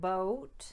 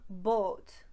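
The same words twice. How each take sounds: First: The vowel glides from one sound to another. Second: The vowel stays steady without any glide.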